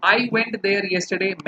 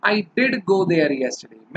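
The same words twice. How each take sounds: First: Said in the usual way. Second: "did" said with a firm push; stress on did. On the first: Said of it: "तो". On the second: Shown as a demonstration. Teacher contrasting the plain sentence with stressed "did". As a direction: put weight on "did". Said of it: "थोड़ा सा जोर डालकर जब आप बोलते हैं".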